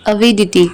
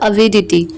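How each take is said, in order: The two takes are said the same way.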